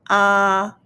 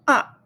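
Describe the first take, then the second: First: The pitch stays high and level. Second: The pitch falls sharply. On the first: "First tone, high pitch" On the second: "Fourth tone"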